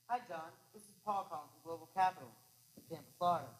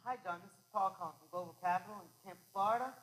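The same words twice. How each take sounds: First: Global Capital is said with a falling downbeat. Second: Global Capital is said with a lifting upbeat.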